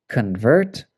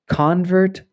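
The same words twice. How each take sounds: First: Con-VERT, with the stress on VERT; weak first syllable in convert, strong second. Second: CON-vert, high and stressed on CON; first-syllable stress. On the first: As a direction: say convert as the verb, kun-VERT. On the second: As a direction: say convert as the noun, CON-vert. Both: Shown as a demonstration. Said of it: "it can change the pronunciation".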